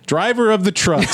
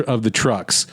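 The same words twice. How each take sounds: First: Mock trucker. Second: Said in the usual way. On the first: Mock quote of stereotypical trucker phrase.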